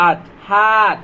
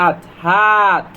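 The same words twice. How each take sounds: First: Said in the usual way. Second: Stretched, slow sound-out; slow phonics sound-out; slow blending. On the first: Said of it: "blended word said again". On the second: Shown as a demonstration. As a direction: blend each sound slowly for children. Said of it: "slow phonics blending demo".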